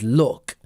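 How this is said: It is said with a Northern English vowel. "you will hear me say it as lucky and look. That's because I have a Northern English accent"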